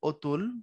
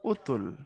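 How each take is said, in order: First: The first vowel is an open 'aw' sound. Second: The first vowel is a closed 'o' sound. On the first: "লেখার সময় যখন লেখো অতুল" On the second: "উচ্চারণ করার সময় তুমি করো হচ্ছে উতুল"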